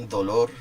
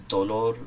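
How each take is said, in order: The two takes are said the same way.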